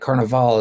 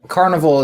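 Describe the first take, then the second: First: The word is said the Italian way. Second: The word is said the American way. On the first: "more Italian" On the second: "the American way to say it"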